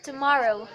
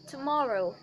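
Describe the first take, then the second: First: American "Tomorrow", punched louder; American accent. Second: RP "Tomorrow" with rounded British vowels; RP accent. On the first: Teacher showing how not to say it, American accent. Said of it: "in American accent you do it like this". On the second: Teacher showing how it should sound, RP accent. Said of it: "in R P, it should sound like this". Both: Shown as a demonstration.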